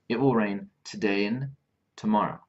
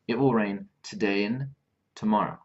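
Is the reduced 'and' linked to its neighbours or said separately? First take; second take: linked; linked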